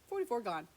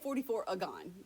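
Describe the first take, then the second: First: No extra vowel comes before 'gon'. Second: An extra 'a' vowel comes before 'gon'. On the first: The speaker calls it right. "It's just forty-four gone" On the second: The speaker calls it wrong. "don't put the letter A in there"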